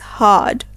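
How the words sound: The R sound at the end is silent. "while in British English, we will pronounce it as hard"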